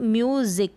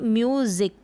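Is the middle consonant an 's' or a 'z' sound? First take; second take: z; z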